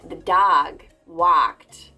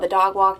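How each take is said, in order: First: It is said with an overcorrected, exaggerated accent. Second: It is said with a neutral, middle-ground accent. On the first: The speaker was overcorrecting a regional accent. "to overcompensate, I was saying the dog walked. Like, I was talking like that" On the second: The speaker sounds ordinary, with no regional marking. "now I'm right in the middle ... I sound normal"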